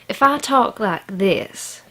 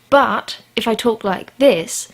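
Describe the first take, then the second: First: It is spoken in a Southern American accent. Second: It is spoken in a British accent. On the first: Listeners assume the speaker is unintelligent. "people assume that I'm a stupid redneck" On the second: Listeners assume the speaker is posh and smart. "people are immediately fascinated"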